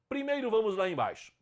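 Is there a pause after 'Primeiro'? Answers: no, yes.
no. It runs on without a pause after the first word. "sem vírgula"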